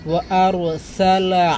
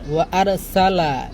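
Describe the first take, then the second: First: The r sound is heavy and thick. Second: The r sound is light and thin. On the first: The speaker calls it right. "রোয়াটা একটু মোটা করবেন" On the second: The speaker calls it wrong. "এভাবে পড়বেন না"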